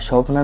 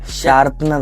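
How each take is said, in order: First: The first vowel is a rounded 'o' sound. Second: The first vowel is an open 'aa' sound. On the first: The speaker calls it wrong. "शॉर्पनर नहीं" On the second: The speaker calls it right. "शार्पनर होता है"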